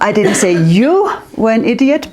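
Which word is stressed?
you. The word 'you' carries the main stress. It was meant about other people. "but your friends, they are not very clever"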